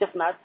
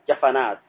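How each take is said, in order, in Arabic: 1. يبقى الحرف الأوسط ساكنًا. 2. يحمل الحرف الأوسط حركة. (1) "لا تقول جفنات" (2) "تقول جفنة جفنات"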